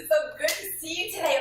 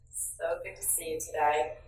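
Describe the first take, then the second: First: It sounds warm and genuinely concerned. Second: It sounds sarcastic and resentful.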